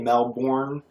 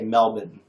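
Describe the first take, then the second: First: It is pronounced the American way. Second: It is pronounced the Australian way. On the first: "We say Melbourne" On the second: "but y'all say Melbourne"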